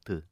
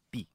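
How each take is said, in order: First: The T is an ordinary plain T sound. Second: The T is a different, sharper T sound. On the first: The speaker calls it wrong. "non T" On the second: The speaker calls it right. "È un'altra T più acuta"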